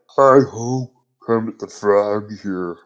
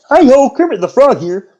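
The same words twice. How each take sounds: First: It is said in an old man's voice. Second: It is said in Kermit's normal voice.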